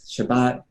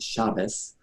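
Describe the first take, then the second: First: The word ends with a t sound. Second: The word ends with an s sound.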